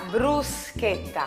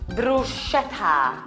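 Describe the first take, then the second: First: The middle consonant is a hard 'sk' sound. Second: The middle consonant is a soft 'sh' sound. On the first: The speaker calls it right. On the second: The speaker calls it wrong.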